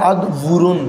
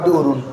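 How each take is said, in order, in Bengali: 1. মাঝের ব্যঞ্জনটি w ধ্বনি। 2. মাঝের ব্যঞ্জনটি গ্লটাল স্টপ। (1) "মানে একটু হষ্ট" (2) "হামলা দিয়ে পর আদ উরুন, একদম ইজি"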